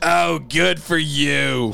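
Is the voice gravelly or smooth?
gravelly. The voice sounds rough and gravelly.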